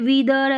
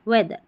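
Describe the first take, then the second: First: The first vowel is a long 'ee' sound. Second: The first vowel is a short 'e' sound. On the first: The speaker calls it wrong. "ऐसे नहीं बोल रहे हैं ई ए को ई पढ़िए, नहीं" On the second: The speaker calls it right. "यहाँ पर ए पढ़ेंगे"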